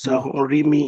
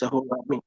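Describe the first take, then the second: First: The vowel before the final syllable is 'i'. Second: The vowel before the final syllable is 'a'. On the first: The speaker calls it wrong. "It's not Sahorimi" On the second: The speaker calls it right. "it's Sahorami"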